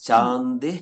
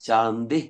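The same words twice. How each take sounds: No difference in how they are said.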